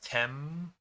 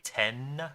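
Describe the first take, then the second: First: The first syllable ends in an m sound. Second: The first syllable ends in an n sound. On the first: "in English it's tem with an M" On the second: "literally ten with an N sound"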